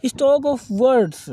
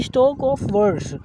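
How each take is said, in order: First: Very slow, word by word, for notes; slow dictation. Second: Said in the usual way. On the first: Shown as a demonstration. Teacher dictating the definition to students, very slow. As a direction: spell it out slowly so students can write it. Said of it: "teacher dictates definition".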